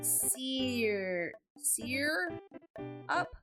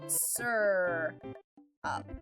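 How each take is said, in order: First: The first syllable sounds like 'sear'. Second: The first syllable sounds like 'sir'. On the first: "But my hubby says sear sear up" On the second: "I say syrup. This is how I pronounce this word. It's sir up"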